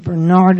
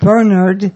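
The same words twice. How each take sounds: First: The name is said the French way. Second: The name is said the English way.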